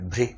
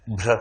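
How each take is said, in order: First: भ्री said bh-ree, the र gliding into a long ee; clear भ्री. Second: भ्र said as one tight cluster bh-ra, no vowel between; clear भ्र. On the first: Teacher contrasting भ्री for the class, long clear ee. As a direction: say भ्री with a stretched final ee. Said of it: "भ में री लगाना हो तो ऐसे". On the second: Teacher showing the class how भ्र sounds, crisp cluster. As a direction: say भ्र crisply, consonants joined. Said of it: "भ में र लगाना हो तो ऐसे". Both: Shown as a demonstration.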